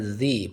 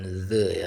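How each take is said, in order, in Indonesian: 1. Vokal pada 'the' terdengar seperti 'ee'. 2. Vokal pada 'the' terdengar seperti 'uh'. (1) "maka bacanya the" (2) "bukan the"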